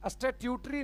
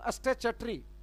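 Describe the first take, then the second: First: The middle is said with a full 'tyoo' sound. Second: The middle is said with a short 'ch' sound. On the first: The speaker calls it wrong. "स्टेट्यूटरी नहीं" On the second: The speaker calls it right. "चा का उच्चारण होता है"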